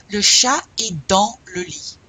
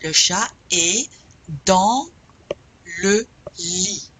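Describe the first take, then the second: First: "Le chat est dans le lit" in one connected phrase; loud, clear "Le chat est dans le lit" without breaks; connected practice model. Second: "Le chat est dans le lit" slowly, word by word, pausing; loud, broken-up teacher's model of "Le chat est dans le lit"; slow practice model. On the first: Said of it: "Répétez". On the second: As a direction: separate "est", "dans" and "le lit" with clear pauses. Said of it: "let's practice". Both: Shown as a demonstration.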